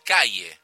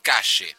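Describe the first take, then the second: First: It is said in a general Latin American accent. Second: It is said in a Buenos Aires accent.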